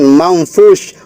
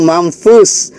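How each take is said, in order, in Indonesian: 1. Kata ini berakhir dengan bunyi sh. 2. Kata ini berakhir dengan bunyi s biasa. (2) "ini adalah sin, akhir dari huruf sin"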